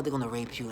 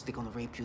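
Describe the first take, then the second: First: Said in the usual way. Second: Low, much softer imitated threat; deep voice. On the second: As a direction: imitate a deep, hushed warning voice. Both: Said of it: "they use this deep voice".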